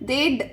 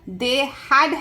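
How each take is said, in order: First: The words are merged into one short syllable. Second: Both words are said in full, separately.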